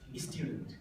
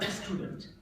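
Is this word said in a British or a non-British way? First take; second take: British; non-British. First: It is said in a British way. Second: It is said in a non-British way. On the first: The speaker calls it right. "they produce like this" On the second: The speaker calls it wrong. "not a student"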